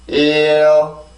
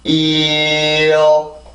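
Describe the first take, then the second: First: It is said faster with a quicker glide. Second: It is said slowly with a drawn-out glide. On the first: "조금만 더 빨리" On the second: "혀가 천천히 올라갈 거예요"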